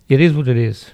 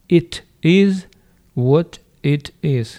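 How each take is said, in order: First: The words are reduced and run together. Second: Each word is said fully and separately.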